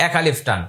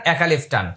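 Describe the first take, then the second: No difference in how they are said.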